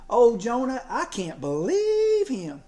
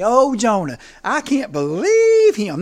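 First: Exasperated. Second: Louder, slow congregational chant; call and response. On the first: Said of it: "a sermon ... that said". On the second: Preacher leading the congregation in a slow, loud refrain. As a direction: lead the church in saying it, slowly and loud. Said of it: "have the church say it with me". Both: Shown as a demonstration.

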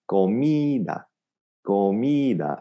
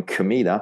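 First: "Comida" with "mi" held a little longer; stress on mi. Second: "comida" as kuh-MEE-da; students' schwa error. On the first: Teacher adds emphasis after drilling, "Comida" with lengthened "mi". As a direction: lean gently on "mi", keep a full ko. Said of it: "a little bit more on the mi". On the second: Teacher imitates students, "comida" with a reduced kuh. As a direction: say "comida" with the weak first vowel of English command. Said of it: "Students going". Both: Shown as a demonstration.

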